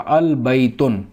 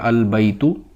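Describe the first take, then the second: First: The word ends with an added n sound. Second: The word ends on a vowel, no n. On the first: The speaker calls it wrong. "ये गलत हो जाएगा" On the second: The speaker calls it right. "जैसे ये है अल बैतु"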